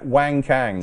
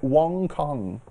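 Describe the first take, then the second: First: The name is pronounced as English spelling suggests. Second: The name is pronounced the Chinese way. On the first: "as I've got written here" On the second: "That's what I said the first time"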